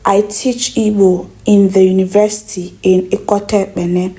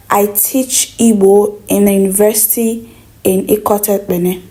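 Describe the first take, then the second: No difference in how they are said.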